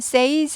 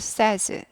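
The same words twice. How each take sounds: First: The vowel is a long "ay" sound. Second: The vowel is a short "eh" sound. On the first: The speaker calls it wrong. "says 아니고" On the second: The speaker calls it right. "에이 발음에서 에로 바뀝니다"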